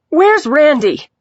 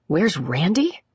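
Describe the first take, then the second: First: High, loud, drawn-out demand; agitated cry. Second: Quieter echoed question, rising at the end; incredulous echo. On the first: Agitated patient asking after her man, loud cry. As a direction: call it out loudly, falling at the end. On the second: Detective echoing the patient's question, incredulous. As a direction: repeat it back as a disbelieving question. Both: A narrator's reading.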